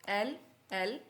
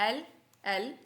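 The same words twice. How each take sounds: Both takes have the same delivery.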